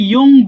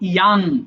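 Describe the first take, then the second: First: The vowel sounds like a rounded 'o'. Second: The vowel sounds like an open 'a'. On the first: The speaker calls it wrong. "আমরা অনেকে ইয়ং বলি" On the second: The speaker calls it right. "শুদ্ধ হবে ইয়াং"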